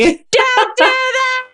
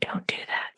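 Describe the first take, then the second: First: The phrase is said loudly and forcefully. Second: The phrase is said very quietly, almost whispered. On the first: The speaker calls it right. "Much better. ... whose earphones got too loud there" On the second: The speaker calls it wrong. "As you whisper it"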